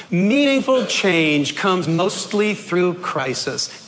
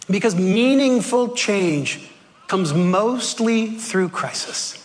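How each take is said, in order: First: Slow, stressing meaningful; slow group reading. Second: Slow, weighty, stressing meaningful; slow emphatic statement. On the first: Preacher reading the line aloud with the congregation. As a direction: read it together slowly, weight on meaningful. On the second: Preacher stressing the key line to the congregation. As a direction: lean on meaningful, then drop to a hush on through crisis. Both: Shown as a demonstration. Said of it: "Let's read it together".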